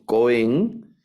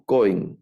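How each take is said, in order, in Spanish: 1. El acento está en la última sílaba. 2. El acento está en la primera sílaba. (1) "no leemos Cohen" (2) "sino Cohen; el acento va en la penúltima sílaba"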